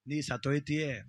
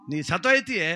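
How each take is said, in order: First: Soft, low ominous warning; quiet warning. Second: Louder, insistent repeat of the warning; pressed warning. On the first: Dasappa softly warns the widow she will die. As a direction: hush it like a dark secret. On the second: Dasappa insists loudly that the widow will die. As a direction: drive the threat home. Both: Acted.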